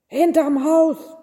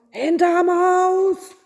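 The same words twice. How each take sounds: First: Loud, raised-pitch yell; irritated shout at callers; bellowing. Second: Very high, loud, drawn-out roar; exasperated yell. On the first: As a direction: bellow it as an annoyed innkeeper. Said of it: "brüllte der Wirt". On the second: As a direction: cut them off with a long, slow yell. Innkeeper cuts off the kings. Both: A narrator's reading.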